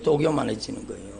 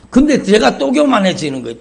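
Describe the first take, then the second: First: Quiet repeat. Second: Higher and louder, hitting 근데 hard; loud exclamation. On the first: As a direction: lower and softer, almost to himself. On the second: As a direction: cry it out to the congregation. Preacher exclaims, then repeats. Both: Acted.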